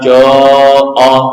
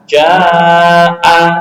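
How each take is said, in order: First: The long vowel is heavy and thick, like 'o'. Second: The long vowel is light and thin, like 'a'. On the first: The speaker calls it wrong. "bukan jo'a, enggak" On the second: The speaker calls it right. "dibaca tarkik apabila huruf pendahulunya juga tipis"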